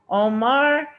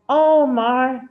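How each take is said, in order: First: The stress is on the second syllable. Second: The stress is on the first syllable. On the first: "if I want to put stress on the second syllable" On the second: "If I want to put stress on the first syllable of his name"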